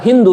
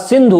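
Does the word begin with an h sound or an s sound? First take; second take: h sound; s sound. First: The word begins with an h sound. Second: The word begins with an s sound. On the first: This is how foreigners said it. "वो सा को हा और धा को दा कहते थे" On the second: This is how the local people said it. "हमारे लोगों ने, भारतीय लोगों ने कहा ये सिंधु है"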